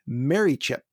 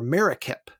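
First: It is pronounced the way the spelling suggests. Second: It is pronounced differently from how it looks.

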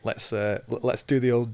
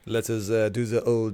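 First: It is said in a plain English accent. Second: It is said in a French accent.

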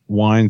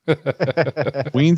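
First: The name is said with the American pronunciation. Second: The name is said with the Canadian pronunciation. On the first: "and Wines is the American" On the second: "Weens is the Canadian pronunciation"

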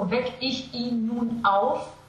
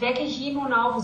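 First: Each vowel-initial word starts with a glottal stop. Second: The words run together without glottal stops. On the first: "if you actually go for Wecke ich ihn nun auf, it's a lot of glottals at once" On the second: "is wrong"

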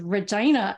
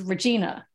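First: The name is said a non-U.S. way. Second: The name is said the U.S. way. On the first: "then it's being said as Regina" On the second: "the U.S. pronunciation is Regina"

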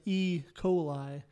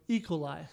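First: The two parts are said clearly separately. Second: The two parts are run together quickly. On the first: The speaker calls it right. "I hear [name] saying E. coli" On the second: The speaker calls it wrong. "so I'm just running the two together as opposed to enunciating the two"

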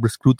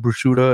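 First: The word is said with an Italian pronunciation. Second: The word is said with an American pronunciation. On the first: The speaker calls it right. "Like she pronounces it correctly" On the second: The speaker calls it wrong. "it's not called bruschetta"

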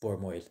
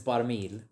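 First: It is said in Gozitan dialect. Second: It is said in standard Maltese.

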